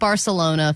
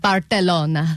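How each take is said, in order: First: It is pronounced with a plain American accent. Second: It is pronounced with a Spanish-style accent. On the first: It suits the speaker's own ordinary way of talking. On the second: It copies the local pronunciation.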